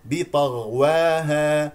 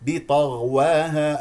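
The two takes are said the same way.

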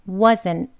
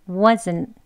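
No difference in how they are said.

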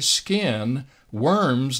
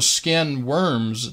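First: There is a break between skin and worms. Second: Skin and worms run together without a break. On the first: Worms come after the skin is gone. The speaker calls it right. "Let me read very slowly and deliberately" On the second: A kind of worm called skin worms. The speaker calls it wrong. "I have many times heard this verse misquoted"

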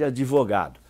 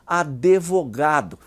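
First: No extra vowel is heard after the d. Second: An extra vowel is heard after the d. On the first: The speaker calls it right. "em lugar de advogado" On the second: The speaker calls it wrong. "simpatia pela pronúncia advogado"

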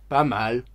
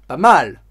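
First: It is said in a flat, lukewarm tone. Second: It is said in a lively, enthusiastic tone. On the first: It is not very good. "ça veut plutôt dire que ce n'est pas très bon" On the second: It is quite good. "ça veut plutôt dire que c'est bien, c'est très bon"

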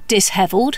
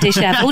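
First: The s and h are said as separate sounds. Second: The s and h merge into one sh sound. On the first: The speaker calls it wrong. "I used to think it was dishevelled" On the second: The speaker calls it right. "instead of dishevelled"

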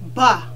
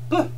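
First: The mouth opens wide with a full vowel. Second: The sound is short with a slight vowel. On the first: The speaker calls it wrong. "don't open your mouth that wide. Because now you're making two sounds instead of one" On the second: The speaker calls it right. "You only want to say ba slightly. Just get it out nice and easy"

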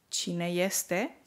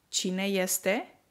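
Both takes have the same delivery.

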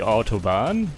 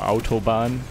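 First: It is said with an English pronunciation. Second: It is said with a German pronunciation. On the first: The speaker calls it wrong. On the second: The speaker calls it right.

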